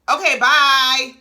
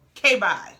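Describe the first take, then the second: First: A loud, drawn-out, slow brush-off; dismissive. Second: Said in the usual way. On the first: Real, not acted. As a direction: wave her off, slowly and loud. Dismissing Mel's music talk.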